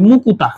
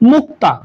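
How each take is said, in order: First: A u vowel splits the k and t sounds. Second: The k and t sounds form a cluster.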